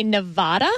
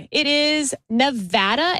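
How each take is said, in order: First: "Nevada" with a broad ah: nuh-VAH-duh; wrong Nevada pronunciation. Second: "Nevada" with a short a: nuh-VAD-uh, slowly; correct Nevada pronunciation. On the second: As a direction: say "Nevada" slowly, middle a as in "apple". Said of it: "the correct way to pronounce the state". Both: Shown as a demonstration.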